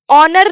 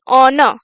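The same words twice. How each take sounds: First: ऑनर with the r sounded at the end, onor; wrong pronunciation. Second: ऑनर stopping at the n, r silent; the right ऑनर, r dropped; correct pronunciation. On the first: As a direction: say ऑनर the wrong way, final r pronounced. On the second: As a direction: end ऑनर on the n, no r. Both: Shown as a demonstration. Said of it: "न में आके रुक जाना है".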